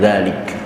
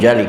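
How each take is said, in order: First: The first consonant is a 'z' sound. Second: The first consonant is a 'j' sound. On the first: The speaker calls it right. "tapi na'udzubillah min zalik" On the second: The speaker calls it wrong. "Bukan na'udzubillah min jalik"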